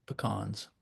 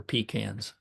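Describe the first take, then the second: First: Pecans said quietly as puh-KAHNZ; puh-KAHNS pronunciation. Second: Pecans said as PEE-canz; PEE-cans pronunciation. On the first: Retold or imitated. Speaker giving his wife's correction, pecans as puh-KAHNZ. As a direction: softly say pecans with a short "puh", then "kahnz". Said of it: "my wife always corrects me". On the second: Shown as a demonstration. Speaker recalling how he grew up saying it, pecans as PEE-canz. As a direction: say pecans with "pee" first and "can" as in tin can. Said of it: "I always get corrected on that".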